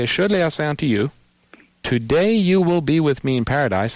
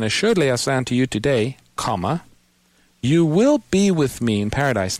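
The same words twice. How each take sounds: First: "Assuredly I say unto you" run quickly, pause, then "today" starts the promise; pause before "today". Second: "Assuredly I say unto you today" as one phrase, say "comma", pause, then "you will"; pause after "today". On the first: Host showing a caller the first reading, pausing before "today". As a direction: break after "you", lean into "today you will be with me in paradise". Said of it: "depending upon where you put the emphasis".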